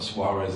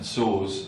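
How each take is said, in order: First: The name begins with a 'swa' sound. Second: The name begins with a 'so' sound. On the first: The speaker calls it wrong. "it's not Suarez as a lot of people have, have called him" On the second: The speaker calls it right. "that's the correct pronunciation"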